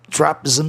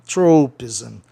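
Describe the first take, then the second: First: Trapism with "TRAH" in place of "TROH"; wrong A sound. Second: Tropism as "TROH-pizm", first syllable stressed; O kept as O. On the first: Teacher warning against a mistake, trapism said with "TRAH". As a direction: open the first vowel of trapism into "ah". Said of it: "não daria certo pra você pronunciar trapism". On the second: Teacher showing the correct word to students, tropism said "TROH-pizm". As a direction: give tropism a clear long O, ending "zm". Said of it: "vai ser O". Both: Shown as a demonstration.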